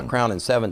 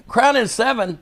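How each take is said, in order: First: Said in the usual way. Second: High-pitched, disbelieving repeat; incredulous echo. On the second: Retold or imitated. Storyteller imitates Harley questioning his drink order, incredulous. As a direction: throw the order back in disbelief.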